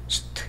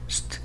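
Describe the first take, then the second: The two takes are said the same way.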